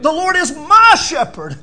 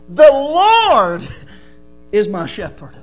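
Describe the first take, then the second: First: The stress falls on the word "my". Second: The stress falls on the word "Lord".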